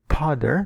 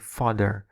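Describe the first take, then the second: First: The word begins with a P sound. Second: The word begins with an F sound. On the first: The speaker calls it wrong. "here we don't say father, no" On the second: The speaker calls it right. "but we say father"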